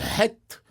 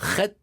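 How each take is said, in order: First: It begins with a soft, light h sound. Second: It begins with a harsh, throaty rasp.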